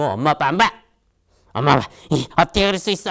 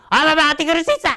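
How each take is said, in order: First: Put-on raised, hurt child snapping at parents; sulky outburst. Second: Put-on much higher, louder, fast childish whine; whiny outburst. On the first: Upset child scolding mom and dad, sulky raised voice. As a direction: throw a higher, louder childish sulk. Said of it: "그때 꿍 해가지고". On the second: Child rudely protesting to dad, high fast whine. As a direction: squeal it like a bratty kid.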